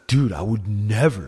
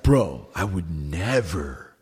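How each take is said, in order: First: Imitating a friend, a light stress on "never"; mildly emphatic retold denial leaning on "never"; Derek's emphatic denial. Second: Slow imitation of a friend, stretching out "never"; Derek's drawn-out emphasis. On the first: Friend denies the theft when confronted, lightly stressing "never". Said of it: "emphasize certain words". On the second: Imitating brother's friend denying the theft, slow, heavy stress on "never". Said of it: "they, like, emphasize certain words".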